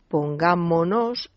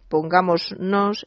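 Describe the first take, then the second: First: No s sound comes before the final nos. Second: An s sound comes before the final nos. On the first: The speaker calls it right. "se pierde obligatoriamente la S" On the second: The speaker calls it wrong. "Muchísimas personas dicen ... que está mal dicho"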